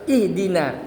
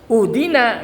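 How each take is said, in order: First: The word begins with an i vowel. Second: The word begins with a u vowel. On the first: The speaker calls it right. "harus ihdina" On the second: The speaker calls it wrong. "Jangan uhdina, enggak boleh"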